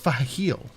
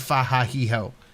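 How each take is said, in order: First: The name ends cleanly without an added vowel. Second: The name ends with an added 'o' sound. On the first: The speaker calls it right. "It's Fahil" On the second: The speaker calls it wrong. "She is saying Fahahiho"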